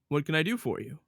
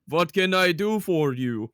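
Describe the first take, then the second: First: It is said without a Russian accent. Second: It is said in a Russian accent.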